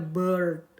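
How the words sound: The vowel is followed by an r sound. "Kalau American atau U S ini akan dibaca bird, ada R-nya dikit baru D"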